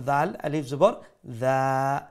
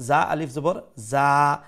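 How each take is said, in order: First: Gentle "th" as in "that" on দাল and দা; soft, light "dhaa" for দা; soft dhal. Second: Buzzing, forceful z on both যা; strong "zaa" in যা, tongue buzzing; powerful za. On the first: Teacher contrasting two letters, soft mulayem dhal in দা. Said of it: "soft, মুলায়ম". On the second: Teacher contrasting two letters, powerful z in যা. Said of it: "এটা হইল powerful". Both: Shown as a demonstration.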